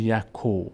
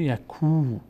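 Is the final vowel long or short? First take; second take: short; long. First: The final vowel is short. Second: The final vowel is long. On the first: The speaker calls it wrong. "دیگه نمیشه یکو" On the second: The speaker calls it right. "میشه یکو"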